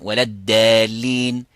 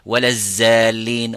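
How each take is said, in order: First: The second word begins with a plain d. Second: The second word begins with a z sound. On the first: "So they're all wrong" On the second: "some people may make ... So they're all wrong"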